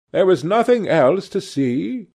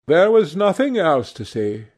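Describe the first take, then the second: First: "There was nothing else to see?" as an anxious check, lifting at the end; questioning. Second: "there was nothing else to see" as a statement, not a question; firm answer. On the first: Painter probing his friend about the picture, questioning. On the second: Young man reassuring the painter about the picture, stating it. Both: Acted.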